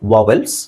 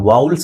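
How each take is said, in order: First: The second syllable sounds like 'el'. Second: The second syllable sounds like 'ul'. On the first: "ಸ್ವರಗಳು ಅಂದ್ರೆ ವಾವೆಲ್ಸ್" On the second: "ಕೆಲವರು ವಾವುಲ್ಸ್ ಅಂತ ಹೇಳ್ತಾರೆ"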